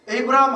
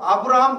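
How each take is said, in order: First: The first vowel is pronounced 'ay'. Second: The first vowel is pronounced 'ah'. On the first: "에이브라함 그럴 때는 A예요" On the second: "틀렸다 할 수가 없잖아요"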